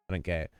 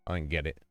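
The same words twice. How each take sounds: The two takes are said the same way.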